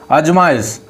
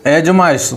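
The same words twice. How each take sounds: The two takes are said the same way.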